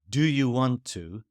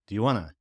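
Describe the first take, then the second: First: Every word is said fully and separately. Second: The words are shortened and run together.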